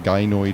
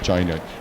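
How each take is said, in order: First: It begins with a hard g sound. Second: It begins with a soft j sound.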